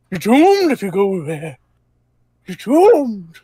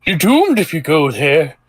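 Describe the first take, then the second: First: Put-on rising, higher doom-laden old man. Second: Put-on ominous old man warning. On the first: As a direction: wail the doom like a prophet. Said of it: "Just to add some flavor". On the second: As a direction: croak it like a doom-saying old man. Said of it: "says, uh, an old man passing by".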